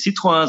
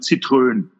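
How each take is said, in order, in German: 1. Er wird auf Französisch ausgesprochen, mit einem s-Laut. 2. Er wird auf Deutsch ausgesprochen, wie Zitrone. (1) "der Deutsche sagt ja nicht Citroën" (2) "sondern Citroën"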